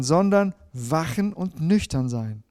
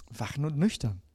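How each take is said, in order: First: "wachen und nüchtern" slowly, every word weighted; slow down and stress each word as a command. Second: Softly echoes "Wachen und nüchtern" to itself; quiet echo. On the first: („wachen und nüchtern“ langsam, jedes Wort betont) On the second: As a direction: repeat it quietly, as if thinking it over. („Wachen und nüchtern“ leise nachklingend wiederholt) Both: Shown as a demonstration.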